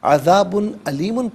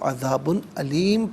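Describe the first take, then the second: First: The last word ends with an -un sound. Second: The last word ends with a bare m. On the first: The reading continues without stopping. "अज़ाबुन अलीमुन पढ़ेंगे" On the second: The reading stops at this point. "यहाँ वक्फ़ करेंगे तो अज़ाबुन अलीम पढ़ा जाएगा"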